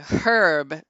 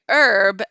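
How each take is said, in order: First: The word starts with an H sound. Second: The word starts without an H sound. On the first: The speaker calls it right. "we say herb because there's a fucking H there" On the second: The speaker calls it wrong. "You say herb"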